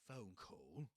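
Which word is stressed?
phone. The stress falls on the first word. The speaker calls it right. "but phone call. That's a compound noun"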